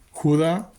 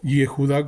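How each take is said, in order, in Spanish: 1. Se dice en dos sílabas, empezando con la j. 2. Se dice en tres sílabas, empezando con la y.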